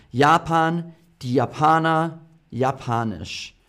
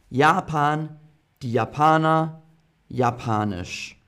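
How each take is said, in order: Both takes have the same delivery.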